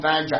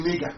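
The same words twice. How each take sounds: First: Niger said as "NY-ja"; rejected pronunciation. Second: Niger said as "NEE-ga"; claimed original pronunciation. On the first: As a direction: say Niger with an eye vowel and j. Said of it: "there is nothing called Niger". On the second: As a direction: say Niger with ee and a hard g. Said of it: "Actually, it's actually Niger". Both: Shown as a demonstration.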